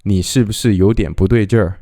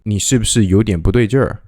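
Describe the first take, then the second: No difference in how they are said.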